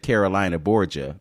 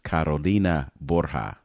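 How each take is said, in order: First: The name is said with an English pronunciation. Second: The name is said with its native pronunciation. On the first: The speaker calls it wrong. "I could have anglicized it" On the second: The speaker calls it right. "Did I say it right?"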